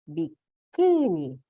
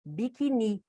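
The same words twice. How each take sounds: First: "Biquíni" drawn out slowly, bi-KÍÍ-ni; stress on middle syllable. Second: "Biquini" wrongly said bi-ki-NI; stress on last syllable. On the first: Teacher shows the corrected word, long stress on KÍ. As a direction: stretch the KÍ in "Biquíni", very slow. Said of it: "eu preciso, ó, fazer isso aqui". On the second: Teacher shows the word without accent, stress on final NI. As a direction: move the weight of "Biquini" to the final NI. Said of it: "ela ia ficar como?". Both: Shown as a demonstration.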